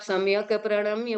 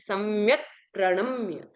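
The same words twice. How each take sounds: First: The k of samyak carries a full 'a' vowel. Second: The k of samyak has no following vowel. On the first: The speaker calls it wrong. "आपका उच्चारण अशुद्ध हो जाएगा" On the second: The speaker calls it right. "क्योंकि क में अ नहीं है"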